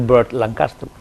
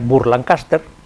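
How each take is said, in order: First: The name is said with English sounds. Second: The name is read with literal Spanish sounds. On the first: "que es como es en inglés" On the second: "lo que sería en español leído literalmente"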